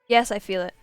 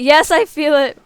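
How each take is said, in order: First: It is said plainly, without any dawning realization. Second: It is said slowly, with dawning realization.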